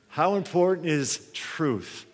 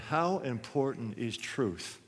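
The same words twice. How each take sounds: First: Slow, weighty question, leaning on "important"; stress on important. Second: Slow and soft, leaning on "How"; stress on how. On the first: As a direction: hit "important" hard and slow it down. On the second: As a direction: draw out "How" quietly and slowly. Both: Shown as a demonstration.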